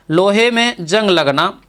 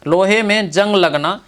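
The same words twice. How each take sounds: The two takes are said the same way.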